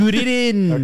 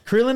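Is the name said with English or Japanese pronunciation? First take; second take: Japanese; English. First: The name is said with Japanese pronunciation. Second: The name is said with English pronunciation.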